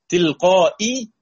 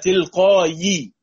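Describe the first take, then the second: First: A glottal stop follows the long a. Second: A y sound follows the long a. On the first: "تلقائي تحولت إلى" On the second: "تحولت إلى تلقائي ووقفنا عليها فصارت ياء ساكنة"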